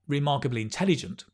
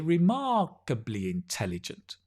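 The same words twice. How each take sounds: First: The 'mar' syllable is short and unemphasized. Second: The 'mar' syllable is longer and higher pitched. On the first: "not remarkably intelligent, it's okay" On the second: "normally we say remarkably intelligent"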